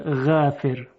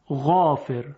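First: The long a vowel sounds light and thin. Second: The long a vowel sounds heavy and full. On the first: The speaker calls it wrong. "نمیگوین غافر" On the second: The speaker calls it right. "الف هم درشت تلفظ میشه"

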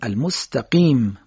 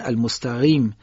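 First: The q sound is a hard, firm q. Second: The q sound is soft, like a gh. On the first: The speaker calls it right. "قاف رو همونجوری که فارسی ما میگیم" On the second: The speaker calls it wrong. "حرف قاف رو شبیه قین میگن"

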